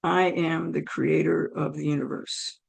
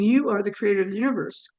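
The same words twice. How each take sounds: First: Low, soft, measured voice of God; imitating God, calm and deep; God's voice. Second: Said in the usual way. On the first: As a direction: lower it into a quiet, solemn declaration. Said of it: "And I hear". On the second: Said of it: "as I'm saying".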